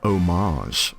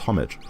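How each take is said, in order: First: The word is pronounced in a French style. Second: The word is pronounced in an English style. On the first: The speaker calls it wrong. "Why are you pronouncing it French?" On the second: The speaker calls it right. "It should be pronounced homage"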